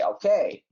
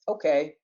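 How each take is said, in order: First: It sounds eager and pleased. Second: It sounds reluctant and unenthusiastic. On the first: The speaker gladly agrees. "you want to go catch a movie, I'll say" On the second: The speaker agrees unwillingly. "you want to go uh, wash the dishes? I'll probably say"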